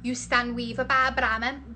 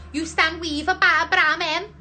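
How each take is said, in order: First: Said in the usual way. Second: Higher, more forceful sounding-out; raised pitch, rising at the end; livelier retry. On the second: Real, not acted. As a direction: push the nonsense phrase up, questioning. Tries phrase as Scouse.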